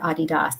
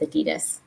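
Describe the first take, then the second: First: The name is said in the local way. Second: The name is said in the American way. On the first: "as probably most people here say" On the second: "us in the U S, we like to have a special tone to how we say Adidas"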